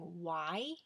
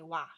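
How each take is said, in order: First: The word is said the standard way. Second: The word is said the local way. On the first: "Instead of saying why" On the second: "I say wah"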